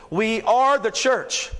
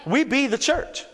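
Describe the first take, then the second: First: "are" drawn out slowly in "We are the church"; stress on ARE. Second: Playful Ebonics rephrasing, "be" for "are". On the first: Real, not acted. Preacher correcting the congregation's idea of church, stressed "are". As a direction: lean on "are", stretching it out. Contrasts church as place with people. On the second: Acted. Preacher jokingly restating his point for the congregation, mock Ebonics. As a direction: put on a light Ebonics voice. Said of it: "That was Ebonics".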